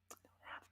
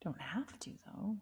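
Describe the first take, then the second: First: Soft unvoiced whisper. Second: Said in the usual way. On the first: Real, not acted. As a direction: say it under breath. Whispered echo of previous line.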